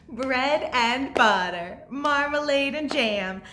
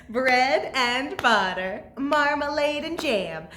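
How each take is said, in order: The two takes are said the same way.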